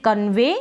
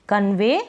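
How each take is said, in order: The two takes are said the same way.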